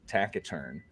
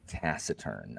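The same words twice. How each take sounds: First: The c is pronounced hard, like a k. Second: The c is pronounced soft, like an s. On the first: This is the Latin-style pronunciation. "if you're pronouncing it with Latin C's" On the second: This is the usual English pronunciation. "in English, we say taciturn"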